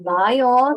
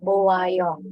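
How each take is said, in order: First: The vowels merge into two syllables. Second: The vowels stay apart in three syllables. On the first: The speaker calls it right. "Cara bacanya Bayo" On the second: The speaker calls it wrong. "Jangan baca Bowayo"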